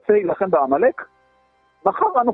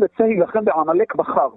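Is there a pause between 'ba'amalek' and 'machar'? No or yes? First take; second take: Yes; No. First: A pause comes before 'machar'. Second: No pause comes before 'machar'. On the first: "אני יכול לקרוא את זה אחרת" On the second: "כלומר, המלחמה בעמלק תהיה מחר"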